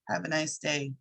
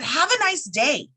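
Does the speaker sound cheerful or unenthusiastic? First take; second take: unenthusiastic; cheerful. First: The voice sounds flat and unenthusiastic. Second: The voice sounds warm and cheerful. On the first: The speaker does not sincerely mean the wish. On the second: The speaker sincerely means the wish.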